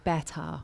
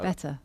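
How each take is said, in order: First: It has an exaggerated imitation British accent. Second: It has a natural, unexaggerated British pronunciation. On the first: An outsider is imitating the accent. The speaker calls it wrong. "whenever I hear people like trying to do the British accent, they always go better... you got it wrong" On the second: A native speaker says it normally. The speaker calls it right. "How do you say it?"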